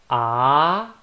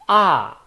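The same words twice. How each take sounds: First: The pitch rises from low to high. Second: The pitch falls from high to low. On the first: "from down to up" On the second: "from up to down"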